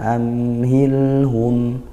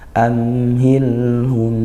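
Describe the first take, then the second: No difference in how they are said.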